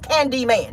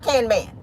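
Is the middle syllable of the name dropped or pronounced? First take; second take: pronounced; dropped. First: All three syllables of the name are pronounced. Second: The middle syllable is dropped, giving two syllables. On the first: The speaker calls it right. "my name is Candy Man" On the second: The speaker calls it wrong. "not Canman"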